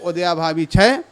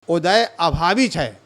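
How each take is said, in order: First: The first word is run together as one word. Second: The first word is split into two separate words. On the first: The speaker calls it wrong. "बोलने में ऐसा लगता है जैसे उदयाभावी कहा जाता है" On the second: The speaker calls it right. "उदय अभावी बोलना"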